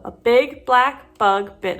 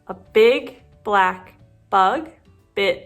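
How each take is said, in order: First: The phrase is said at a fast pace. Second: The phrase is said at a slow pace. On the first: "So very quickly" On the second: "let's try it again slowly"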